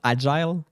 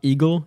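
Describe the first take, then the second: First: The name sounds like the English word agile. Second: The name sounds like the English word eagle. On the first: "It's not agile" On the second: "It's not eagle"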